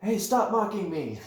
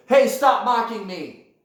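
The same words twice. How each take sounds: First: Higher echo voice ending in a laugh; mocking echo. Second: High, loud, slow canyon shout; indignant yell. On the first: The canyon yelling back at you, mocking echo with laughter. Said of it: "like mocking you". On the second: Acted. You yell at your echo in the canyon, indignant shout. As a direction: yell it down at the mocker. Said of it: "You go".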